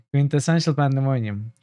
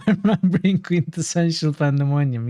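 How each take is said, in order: First: Said in the usual way. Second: Laughing. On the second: Real, not acted. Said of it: "Yes, quintessential pandemonium".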